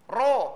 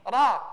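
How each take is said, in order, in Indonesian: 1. Vokalnya terdengar terlalu kuat seperti o. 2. Vokalnya terdengar kurang kuat seperti o. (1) "huruf ro itu terkesan terlalu bunyinya o, jadi ro. Ro. Ini salah pengucapannya" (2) "bukan ro, tapi ro"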